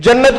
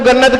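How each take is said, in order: First: The word starts with a j sound. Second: The word starts with a g sound.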